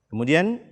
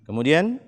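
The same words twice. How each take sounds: No difference in how they are said.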